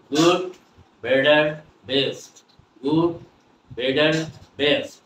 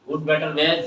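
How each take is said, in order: First: Word-by-word drill with "বেটার" as "bed-der". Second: Rote "good, বেটার, best" with a hard T in "বেটার". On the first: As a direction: say "বেটার" with a D, pausing after each word. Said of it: "টি এর উচ্চারণ হয়ে গেছে ড". ("বেটার"-এ ড, থেমে থেমে) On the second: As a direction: say "বেটার" as "bet-tar". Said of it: "আমরা বেটার আর বলবো না". ("বেটার"-এ শক্ত ট) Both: Shown as a demonstration.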